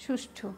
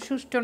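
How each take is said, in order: First: সুষ্ঠু said as shush-thu, with aspirated th; softer, careful shushthu for সুষ্ঠু; correct pronunciation. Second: সুষ্ঠু said as shushto, ending in plain t and o; wrong-example shushto for সুষ্ঠু; mistaken pronunciation. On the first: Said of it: "কিন্তু সঠিক শব্দ হচ্ছে". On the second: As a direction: end সুষ্ঠু in an unaspirated -to. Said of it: "কিন্তু সুষ্ঠু না". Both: Shown as a demonstration.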